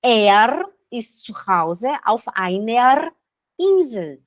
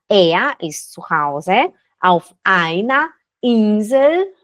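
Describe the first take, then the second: First: "einer" with a rolled R; Swiss rolled R. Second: "einer" ending in A, unrolled; standard German R. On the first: Teacher showing the Swiss way with rolled R. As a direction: roll the R in "einer". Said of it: "dos dois jeitos". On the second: Teacher showing the standard way without rolled R. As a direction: say "einer" as aina. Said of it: "Você pode falar dos dois jeitos". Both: Shown as a demonstration.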